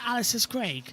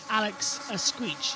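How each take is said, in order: First: The surname ends with a hard g sound. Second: The surname ends with a ch sound. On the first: "in English, you pronounce it" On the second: "the correct pronunciation guide uh, from the Spanish media"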